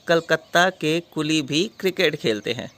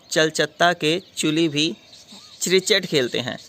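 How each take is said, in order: First: Calcutta and coolie begin with a k sound. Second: Calcutta and coolie begin with a ch sound. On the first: The speaker calls it right. "यहाँ पे हम सी को च नहीं क बोलेंगे" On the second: The speaker calls it wrong. "ऐसा नहीं होता"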